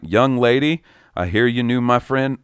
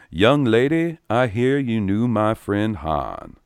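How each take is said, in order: First: It is read in the speaker's plain voice. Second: It is done in a Lando Calrissian impression voice.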